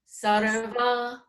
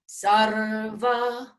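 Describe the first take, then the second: First: The r and v sounds run together. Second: The r and v sounds are each clearly articulated. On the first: The speaker calls it wrong. "then we're not honoring the r or the va" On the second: The speaker calls it right. "So it has to be sarva"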